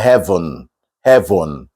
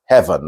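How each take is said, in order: First: "heaven" with a full second vowel, "heh-von"; wrong full vowel. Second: "heaven" as "hev'n", pitched low; dropped E. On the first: Teacher showing what not to say, wrong "heaven". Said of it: "not that". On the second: Teacher showing the E is gone, "heaven" as hev'n. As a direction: close "heaven" from v right onto n. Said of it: "like the E wasn't there". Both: Shown as a demonstration.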